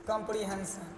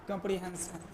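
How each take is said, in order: Both takes have the same delivery.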